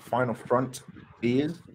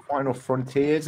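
First: "front ears" broken apart with a pause; split into two words. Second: Said in the usual way. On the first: Shown as a demonstration. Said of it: "and not final front ears". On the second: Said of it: "You said final frontiers".

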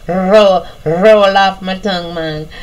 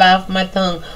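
First: Light Jamaican accent; a touch of Jamaican patois. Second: Said in the usual way. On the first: Shown as a demonstration. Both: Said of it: "I'm gonna put on my little Jamaican accent".

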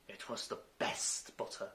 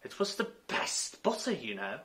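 First: Meek. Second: Lame repeat. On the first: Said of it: "the March Hare meekly replied". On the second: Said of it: "nothing better to say". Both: A narrator's reading.

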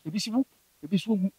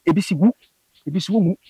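First: Soft, quick murmur of a voice heard in the ear; a hushed remembered voice whispering in the ear. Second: Said in the usual way. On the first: Retold or imitated. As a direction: echo it faintly and fast. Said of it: "Na mete voice no nso so wɔ m'asom". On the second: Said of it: "deɛ mɛtena m'asom sɛ".

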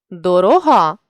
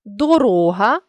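First: Дорога with final ГА stressed; stress on last syllable. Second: Дорога with РО stressed; stress on middle syllable. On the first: Teacher means the adjective, дорога stressed on ГА. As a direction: land on ГА ending дорога. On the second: Teacher means the noun, Дорога stressed on РО. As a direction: lean on RO, the РО inside Дорога. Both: Shown as a demonstration. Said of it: "залежно від наголосу".

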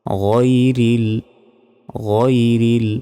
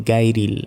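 First: গায়রিল with throaty gh, rounded to ghoi-ril; heavy ghayn. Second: গায়রিল with hard g, as gai-ril; common mispronunciation. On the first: Teacher models the right letter, throaty rounded গায়রিল. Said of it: "গইন জবর হয় গ". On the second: Teacher quotes the mistake, hard-g গায়রিল. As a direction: say গায়রিল with plain g and open a. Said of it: "অনেকে বলি". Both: Shown as a demonstration.

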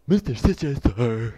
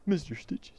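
First: Loud, goofy underling; stupid minion voice. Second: Said in the usual way. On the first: Acted. Dim henchman addressing the boss, loud stupid voice. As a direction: announce it loudly as a dopey minion.

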